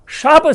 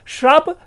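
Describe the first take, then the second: First: No r sound follows the initial sh. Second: An r sound follows the initial sh. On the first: The speaker calls it right. "शाप सही है" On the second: The speaker calls it wrong. "श्राप गलत है"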